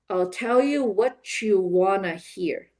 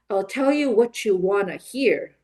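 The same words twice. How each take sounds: First: It is said naturally with reduced, linked words. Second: It is said faster with a strong rhythm. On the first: "a little bit more naturally with the reductions and connected speech" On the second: "a little bit faster with rhythm"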